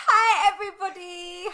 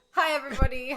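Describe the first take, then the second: First: High, loud squeaky greeting; squeaky voice, half laughing. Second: Said in the usual way. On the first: Real, not acted. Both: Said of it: "Me and my squeaky fucking voice".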